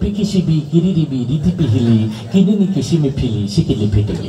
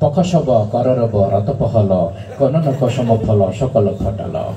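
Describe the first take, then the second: First: Every syllable uses the vowel i. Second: Every syllable uses only the plain inherent vowel. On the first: The i vowel sign had just appeared. "রস্মিকার আবিষ্কার হইলো" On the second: No vowel signs existed yet. "আকার ও শিকার কিছু আবিষ্কার হয় নাই"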